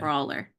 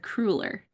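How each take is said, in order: First: The first vowel sounds like 'aw'. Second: The first vowel sounds like 'uh'. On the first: The speaker calls it wrong. "I have been saying that wrong" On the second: The speaker calls it right. "It's a cruller"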